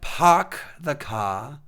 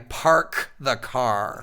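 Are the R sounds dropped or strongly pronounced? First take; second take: dropped; strongly pronounced. First: The R sounds are dropped. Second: The R sounds are strongly pronounced. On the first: This is not how the speaker talks. "I don't" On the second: This is how the speaker talks. "hard R's"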